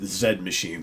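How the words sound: The letter is said as British 'zed'. The speaker calls it right. "they do pronounce it Zed Machine"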